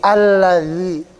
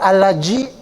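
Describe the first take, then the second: First: The middle consonant is a th sound. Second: The middle consonant sounds like j. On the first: The speaker calls it right. "Ujung lidahnya dikeluarin dikit, digigit" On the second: The speaker calls it wrong. "Bukan allaji"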